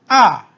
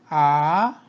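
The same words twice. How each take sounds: First: The pitch falls sharply from high to low. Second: The pitch rises from mid to high.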